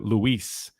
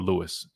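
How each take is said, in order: First: The name is said with a Spanish pronunciation. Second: The name is said with an English pronunciation. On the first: "sometimes with some Spanish pronunciation, you got a little bit Luis" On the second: "but that's more of a Louis"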